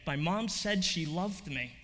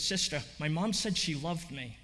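First: Slower, lingering on each word; slow tearful repeat. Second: Understated tearful telling. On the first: Girl repeating her mother's words to the nun, slow and tearful. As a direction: repeat it slowly, letting it sink in. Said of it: "And she repeated again". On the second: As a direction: say it through mild tears. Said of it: "She's in tears". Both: Retold or imitated.

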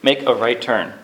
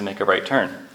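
First: Flat robotic GPS voice. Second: Said in the usual way. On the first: Retold or imitated. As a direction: read it like a sat-nav robot. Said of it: "the G P S chimes in with its robotic voice".

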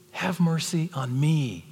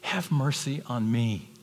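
First: Calling the church to pray; urgent plea. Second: Slow, earnest plea; pleading prayer. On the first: Shown as a demonstration. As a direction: cry out for mercy. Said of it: "That's the attitude". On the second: Retold or imitated. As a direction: beg humbly. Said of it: "He said".

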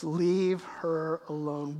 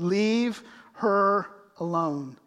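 First: Slow, softer stretched-out words; a hint of quiet command. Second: Slow, deliberate commanding words; firm command. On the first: Jesus quietly stopping the scolders, slow. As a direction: let the command sink in slowly. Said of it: "And Jesus says". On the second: Acted. Jesus firmly defending Mary, slow commanding. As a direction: say it slowly like Jesus protecting her. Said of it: "he said".

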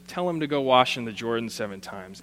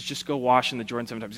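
First: Said in the usual way. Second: Quick offhand instruction, tossed away; a dismissive aside. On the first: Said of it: "He just says". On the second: Acted. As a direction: toss it off fast like it's nothing. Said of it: "He says".

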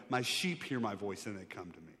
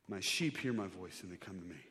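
No difference in how they are said.

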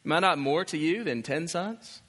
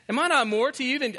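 First: Said in the usual way. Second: Mock self-important husband. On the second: Pastor parrots Elkanah's boast to his wife, higher and mocking. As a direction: lift it up in disbelief at the husband. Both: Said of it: "he says that".

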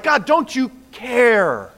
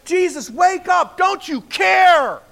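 First: Slow, louder, higher pleading to God; a hint of a believer's frustrated lament; complaining prayer. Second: High, loud, slow panicked shout; frightened disciples shouting at sleeping Jesus; desperate plea. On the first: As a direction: ask God why he seems not to care. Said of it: "we're like". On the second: Retold or imitated. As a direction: yell at him to wake up before they drown. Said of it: "they're like".

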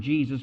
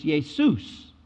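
First: Said in the usual way. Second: Jesus said as YAY-soos, Greek style; Greek pronunciation. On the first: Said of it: "We get the English word Jesus". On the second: Shown as a demonstration. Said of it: "but the Greek word is Jesus".

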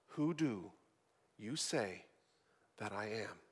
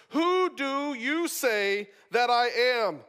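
First: Much lower and softer, almost gone; preacher closing on Jesus' question, low and hushed. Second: Slow, deliberate question, each word weighed; preacher pressing Jesus' question on the congregation, slow and emphatic. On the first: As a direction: breathe the question out softly. Question repeated in a hush. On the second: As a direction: put the question to them slowly and pointedly. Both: Acted.

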